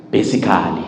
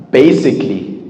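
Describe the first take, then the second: First: Basically wrongly said with every syllable sounded; wrong pronunciation. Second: Basically said right in three syllables; correct pronunciation. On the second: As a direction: swallow the "a" before "-lly" in basically. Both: Shown as a demonstration. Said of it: "It's not".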